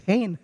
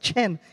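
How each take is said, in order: First: It starts with an h sound, rhyming with 'gain'. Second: It starts with a ch sound, rhyming with 'ten'. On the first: The speaker calls it right. "It's pronounced as hain, like gain" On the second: The speaker calls it wrong. "it's not chen"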